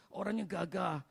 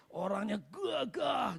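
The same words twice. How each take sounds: First: Said in the usual way. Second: "gagah" drawn out slowly with force; slow, swelling stress on "gagah"; emphatic GAGAH. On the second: Real, not acted. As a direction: lean long and hard on "gagah". Stretches the word for emphasis.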